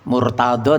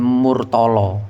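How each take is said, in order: First: The last syllable begins with a d sound. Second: The last syllable begins with an l sound.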